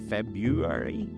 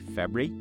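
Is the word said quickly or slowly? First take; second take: slowly; quickly. First: The word is said slowly with every syllable. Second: The word is said quickly with syllables squeezed. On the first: "Some people say February" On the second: "Some people say it really quickly and just say"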